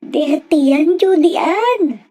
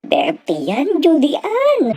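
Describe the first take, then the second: First: The voice sounds threatening and stern. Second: The voice sounds tearful, close to crying. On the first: "Parang nananakot ang kanyang boses" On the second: "parang maiiyak ang kanyang boses"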